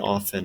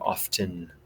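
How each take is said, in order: First: The T sound is silent. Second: The T sound is pronounced. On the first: This is how it is said in American English. "in the U S, we say often. ... we don't say the T here in the U S" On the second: This is how it is said in British or Australian English. "British English, Australian English, it would be often"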